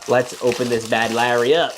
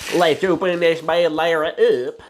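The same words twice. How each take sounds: First: It is said in his normal voice. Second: It is said in a Tow Mater voice.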